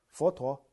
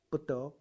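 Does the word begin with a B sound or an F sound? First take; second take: F sound; B sound. First: It starts with F and has a T. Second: It starts with B and has a D. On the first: The speaker calls it wrong. "那你普通话怎么念？佛陀是F" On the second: The speaker calls it right. "那你用台湾闽南话念怎么念？"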